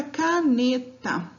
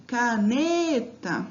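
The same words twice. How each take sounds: First: Said in the usual way. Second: "Caneta" slowly, with the NE held long; slow "Caneta", leaning hard on NE; calling the word out. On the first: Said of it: "Então, eu chamo essa palavra". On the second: Shown as a demonstration. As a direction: call out "Caneta", stretching the middle syllable NE. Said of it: "eu falo ela pausadamente".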